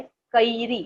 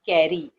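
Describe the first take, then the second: First: कैरी said as kə-iri with the vowel split in two; Marathi pronunciation. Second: कैरी said as kɛri with a single open e vowel; Hindi pronunciation. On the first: Teacher showing children the Marathi way to say it, kə-iri. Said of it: "Marathi में इसका उच्चारण ऐसा होता है". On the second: Teacher showing children the Hindi way to say it, kɛri. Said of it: "लेकिन मराठी में इसका उच्चारण ऐसा होता है". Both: Shown as a demonstration.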